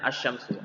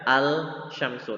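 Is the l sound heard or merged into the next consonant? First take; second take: merged; heard. First: The l sound merges into a doubled sh. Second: The l sound is clearly pronounced before sh. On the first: The speaker calls it right. "tapi dibaca asyamsu" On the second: The speaker calls it wrong. "Kan tidak dibaca al-syamsu"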